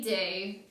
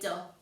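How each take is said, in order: First: The vowel is a long oo sound. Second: The vowel is a short uh sound. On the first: The speaker calls it right. "We would say do" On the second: The speaker calls it wrong. "We wouldn't say duh"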